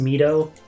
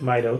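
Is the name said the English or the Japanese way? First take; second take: Japanese; English. First: The name is said with Japanese pronunciation. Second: The name is said with English pronunciation. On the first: The speaker calls it wrong. "That would be the Japanese pronunciation" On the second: The speaker calls it right. "I'm going to pronounce it Mido because I think it sounds less stupid"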